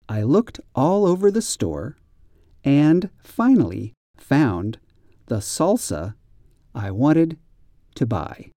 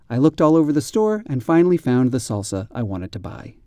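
First: The sentence is read slowly. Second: The sentence is read fast.

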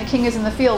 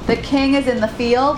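First: It is spoken in an Australian accent. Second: It is spoken slowly in an American accent.

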